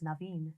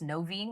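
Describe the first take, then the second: First: The first vowel sounds like 'ah'. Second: The first vowel sounds like 'oh'. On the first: It matches the mother's name. "correct pronunciation is Naveen" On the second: It is read from the spelling. "people will see it and think it's Noveen"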